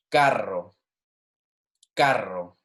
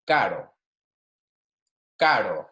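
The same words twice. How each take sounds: First: Carro with a full trilled rr; rolled double R. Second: Flick the r in caro once; single tap R. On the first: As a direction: roll the rr in carro. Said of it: "versus our double R". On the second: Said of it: "it's almost like you're using a D". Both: Shown as a demonstration.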